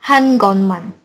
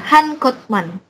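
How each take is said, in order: First: An n sound comes before the m. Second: A t sound comes before the m. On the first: The speaker calls it right. "S-nya berubah jadi N" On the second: The speaker calls it wrong. "jadi bukan Han Kotman"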